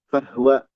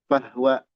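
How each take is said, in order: No difference in how they are said.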